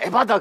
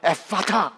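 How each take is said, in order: First: The middle consonants are the b and d sounds. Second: The middle consonants are the p and t sounds. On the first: The speaker calls it wrong. "발음을 좀 강하게 소리 주다 보니까" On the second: The speaker calls it right. "이렇게 말해야 되는데"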